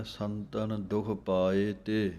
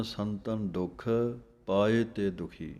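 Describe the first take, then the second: First: Slow ਸੰਤਨ ਦੁਖ ਪਾਏ ਤੇ with the pause after ਤੇ; the taught phrasing, breaking at ਤੇ; correct pause. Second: The mistaken phrasing some reciters use; wrong pause. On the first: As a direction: stop right after ਤੇ, then say ਦੁਖੀ. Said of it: "ਇੱਥੇ ਵਿਸਰਾਮ ਹੈ". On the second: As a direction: pause after ਦੁਖ, then ਪਾਏ ਤੇ ਦੁਖੀ. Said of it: "ਕਈ ਵਿਸਰਾਮ ਲਾ ਦਿੰਦੇ ਹਨ". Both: Shown as a demonstration.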